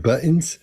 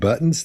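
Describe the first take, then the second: First: The middle t is swallowed. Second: The middle t is clearly pronounced. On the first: The speaker calls it wrong. "they say buttons or buttons" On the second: The speaker calls it right. "instead of saying buttons"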